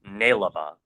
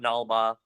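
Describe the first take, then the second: First: The name has three syllables: nai-la-ba. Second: The name has two syllables: nal-ba. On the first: The speaker calls it right. "which is pronounced Nailaba" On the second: The speaker calls it wrong. "it's not Nalba"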